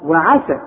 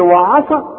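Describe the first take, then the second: First: The vowel after the ain is kept short. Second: The vowel after the ain is drawn out long. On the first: The speaker calls it right. "لا" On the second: The speaker calls it wrong. "ما تقولش وعاء"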